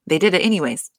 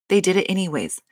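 The two takes are said the same way.

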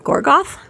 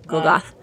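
First: Gorgoth? said with an R, gor-goth, rising as a question; Gorgoth? with the R sounded in the first syllable; Gorgoth? the mistaken version with an R; wrong name. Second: Gogoth. said with no R, go-goth; Gogoth. first syllable a plain go, no R at all; Gogoth. the corrected version, no R; corrected name. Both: Shown as a demonstration. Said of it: "Yeah, no R".

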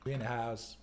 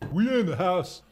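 First: Said in the usual way. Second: High, loud whoop of a line; hyped call-out. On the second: Real, not acted. Streamer hyping up the viewers, loud high call-out. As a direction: call it out big, pitch swooping up. Repeats hype call, raised voice.

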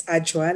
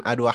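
First: Ajwa as two syllables, J in the middle; corrected name. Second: Adwa said with a hard D and W sound; mispronounced name. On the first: Shown as a demonstration. Guest corrects host, saying Ajwa with a J. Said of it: "like a J". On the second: Real, not acted. Host greets guest, mispronouncing Adwa with a D. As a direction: Adwa with D and W as written. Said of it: "I'm just gonna correct you on my name".

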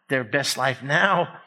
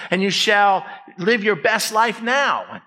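First: Slow, sceptical repeat; dismissive echo. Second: Raised-pitch fake scripture quote; mock proclamation. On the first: Real, not acted. Preacher scoffing at the misquote, slow dismissive question. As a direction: throw it back as a doubtful question. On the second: Preacher parodying a misquoted verse to congregation, mock proclamation.

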